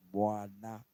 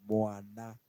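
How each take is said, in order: Both takes have the same delivery.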